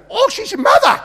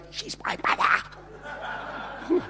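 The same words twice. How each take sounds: First: Very high, booming imitation of realizing; loud mock exclamation. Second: Slow, urgent stage whisper. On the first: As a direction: blurt it out loudly for all to hear. Healer loudly announces the secret. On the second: Retold or imitated. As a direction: hiss it as an exaggerated stage whisper. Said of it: "in a stage sort of a kind of a".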